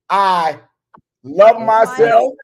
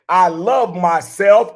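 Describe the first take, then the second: First: It is said at a normal pace. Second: It is said very fast.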